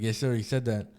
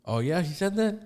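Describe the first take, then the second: First: Said in the usual way. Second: Higher, rising questioning tone; retold surprised question. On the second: Storyteller as supervisor hearing of the threat, surprised. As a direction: imitate a supervisor checking a startling claim.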